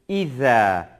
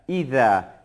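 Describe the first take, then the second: The two takes are said the same way.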